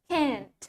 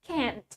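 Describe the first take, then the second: First: It is said in an American accent. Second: It is said in an American accent.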